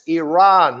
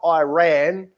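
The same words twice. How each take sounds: First: It does not sound like 'I ran'. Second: It sounds like the phrase 'I ran'. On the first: The speaker calls it right. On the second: The speaker calls it wrong.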